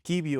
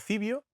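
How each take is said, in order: First: The name begins with a hard k sound. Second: The name begins with a soft consonant sound. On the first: It follows the Latin reading of the name. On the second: It follows the ordinary Spanish reading of the name.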